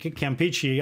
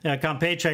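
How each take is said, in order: First: The name is pronounced with English sounds. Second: The name is pronounced with Spanish sounds. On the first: "I pronounce it Campeche. I don't know, I've always done that, the English pronunciation" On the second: "Campeche in Spanish, obviously"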